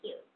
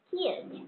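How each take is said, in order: First: The first k sound has no puff of air. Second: The first k sound has a strong puff of air. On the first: The speaker calls it wrong. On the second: The speaker calls it right.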